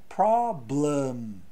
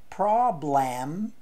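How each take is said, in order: First: The second vowel is a reduced schwa sound. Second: The second vowel is a full 'e' sound. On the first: The speaker calls it right. "se fala problem. Então esse e tem um som de a" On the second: The speaker calls it wrong. "Não se fala problem"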